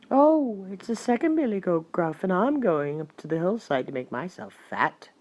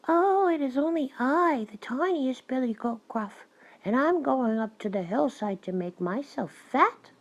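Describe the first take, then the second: First: Middle-sized billy goat; less small goat voice. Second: High, tiny billy goat; small goat voice. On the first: Second goat answers the troll, in a not so small voice. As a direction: answer as a goat of medium size. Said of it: "who hadn't such a small voice". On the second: Youngest goat answers the troll, in a small high voice. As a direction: pipe up high and little. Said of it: "with such a small voice". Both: A narrator's reading.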